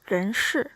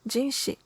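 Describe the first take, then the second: First: The name is said with Chinese sounds. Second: The name is said with Japanese sounds.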